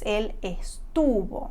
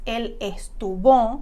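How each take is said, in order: First: The stress falls on the middle syllable. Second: The stress falls on the last syllable. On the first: The speaker calls it right. "el acento está en la raíz" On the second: The speaker calls it wrong. "no es él estuvo"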